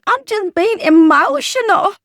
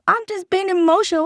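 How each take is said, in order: First: High, loud mock whine of an excuse. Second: Mocking the excuse, higher and quick; lighter mock excuse. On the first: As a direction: parrot the excuse in a higher, louder voice. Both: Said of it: "That's lie number five".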